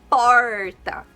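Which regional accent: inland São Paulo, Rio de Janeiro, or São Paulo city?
inland São Paulo. It is said with an inland São Paulo accent. "Pessoas do interior de São Paulo, interior de Minas Gerais e outras regiões falariam"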